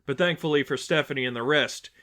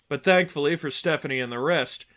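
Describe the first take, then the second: No difference in how they are said.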